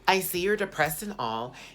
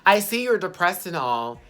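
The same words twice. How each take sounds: First: It is read in a put-on mean-girl voice. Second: It is read in her plain voice.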